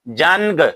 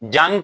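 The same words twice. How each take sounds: First: The n is pronounced as a full consonant. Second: The n is only a nasal vowel. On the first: The speaker calls it wrong. "अगर कोई नून जाहिर करता है" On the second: The speaker calls it right. "इसमें नून जाहिर नहीं किया जाता"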